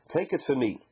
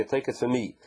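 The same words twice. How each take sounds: First: Said in the usual way. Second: "Take" hit harder, rest of "Take it for me" lighter; "Take" stressed in a questioning read of "Take it for me". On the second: Shown as a demonstration. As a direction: lean on "Take" as the key word. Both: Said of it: "What's the emphasis here of kachli?".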